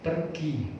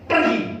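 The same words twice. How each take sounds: First: It is said flatly, like a plain statement. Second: It is said forcefully, like a firm command.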